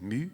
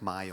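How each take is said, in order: First: The vowel sounds like "moo". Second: The vowel sounds like English "my". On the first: This is the name's real Swedish pronunciation. "mais Mu" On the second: This is how it would be read in English. "My en anglais"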